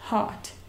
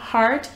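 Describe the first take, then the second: First: It is said with a British accent. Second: It is said with an American accent.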